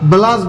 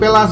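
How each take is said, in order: First: The word begins with a voiced b sound. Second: The word begins with a voiceless p sound. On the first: The speaker calls it right. "ব্লাস বলবেন" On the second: The speaker calls it wrong. "কেউ প্লাস বলবেন না"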